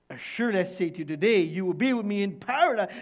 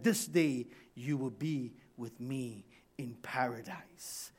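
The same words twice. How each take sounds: First: Loud, quick, insistent promise; emphatic assurance. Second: Hushed, lower, tender promise; softly reassure, nearly whispering; soft assurance. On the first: Preacher repeats Jesus' promise to thief, emphatic assurance. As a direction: proclaim it quickly and forcefully. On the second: Jesus to the dying thief, soft assurance. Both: Acted.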